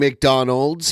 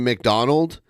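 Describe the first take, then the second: First: The name ends with an s sound. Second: The name ends without an s sound. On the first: This is the usual form of the name. "He's not saying McDonald's" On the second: This imitates a French Canadian accent. "He's saying McDonald"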